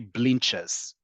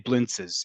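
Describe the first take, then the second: First: It uses the pronunciation used in Israel. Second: It uses the pronunciation not used in Israel. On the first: The speaker calls it right. "In Israel, you say blinches" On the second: The speaker calls it wrong. "In Israel, you do not say blintzes"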